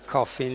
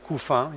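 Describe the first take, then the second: First: The name is pronounced the English way. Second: The name is pronounced not the English way. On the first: The speaker calls it wrong. "Please don't pronounce my name in English. Coffin, it sounds bad" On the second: The speaker calls it right. "It's Coufin if you want to pronounce it properly"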